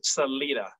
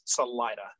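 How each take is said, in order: First: The name is said with a Spanish pronunciation. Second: The name is said with a local English pronunciation. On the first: "Proper Spanish is Salida" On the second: "Locally, it, it is Salida"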